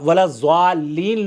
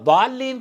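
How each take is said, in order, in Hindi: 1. मुख्य व्यंजन की आवाज़ z जैसी है। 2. मुख्य व्यंजन की आवाज़ भारी d जैसी है। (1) "लोग पढ़ते हैं हमारे यहाँ अक्सर लोग। हाँ, ये दुरुस्त नहीं है।" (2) "द्वाद से"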